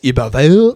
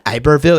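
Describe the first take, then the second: First: The name has a French Creole pronunciation. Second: The name has a plain American English pronunciation. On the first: The speaker calls it right. "it's Iberville" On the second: The speaker calls it wrong. "it's not Iberville"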